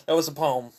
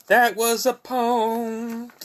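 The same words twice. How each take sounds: First: Said in the usual way. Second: High, slow, drawn-out croon; sung, playful sing-song. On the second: Pretend. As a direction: sing it out high and stretch the last word.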